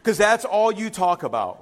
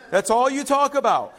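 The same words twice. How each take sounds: First: Said in the usual way. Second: Louder and higher, laughing as he repeats it; playful teasing laugh, turned up; laughing tease. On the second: Real, not acted. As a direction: rib her with a laugh. Teasing a church member, repeated.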